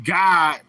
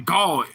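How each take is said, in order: First: The word is said with a short 'god' vowel. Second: The word is said with a drawn 'gawd' vowel. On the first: The speaker calls it right. "in the English language pronounced God, capital G O D" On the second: The speaker calls it wrong. "but they say God, lowercase G A W D"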